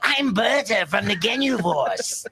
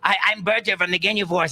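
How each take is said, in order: First: It is said hissy, with long S sounds. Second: It is said in a plain character voice.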